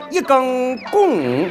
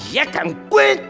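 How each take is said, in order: First: Shanxi accent with the tones falling downward. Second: Shaanxi accent with the tones all rising. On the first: "这个爱往下边走" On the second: "全朝上走啊"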